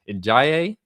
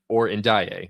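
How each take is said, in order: First: The name is said with a G-like sound. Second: The name is said with a plain D sound. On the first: "they like kind of pronounce it with a G" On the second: "pronounce it with the with the straight with just the big D"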